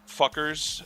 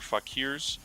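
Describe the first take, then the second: First: The word is said like 'fuckers'. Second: The word is said like 'fakeers'. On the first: The speaker calls it wrong. "I hope that it's not pronounced fuckers" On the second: The speaker calls it right. "I think it's Fakir or Fakirs"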